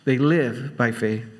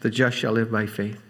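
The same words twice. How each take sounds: First: LIVE drawn out slowly, then "by faith" falls away; slow down and lean on the word "live"; stress on LIVE. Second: Weight falls on FAITH at the end; stress on FAITH. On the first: Preacher explaining the emphasis in Hebrews, stress on LIVE. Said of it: "the emphasis is on live". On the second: Preacher explaining Paul's emphasis in Romans, stress on FAITH. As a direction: lower line, landing on the word "faith". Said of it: "the emphasis is on the faith". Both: Shown as a demonstration.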